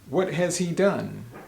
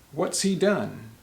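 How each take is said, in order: First: Every word is said fully and separately. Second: What and has are contracted into one syllable. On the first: "question could be" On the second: "So instead, we'll say"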